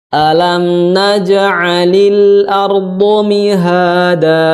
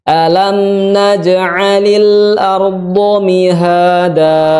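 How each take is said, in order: No difference in how they are said.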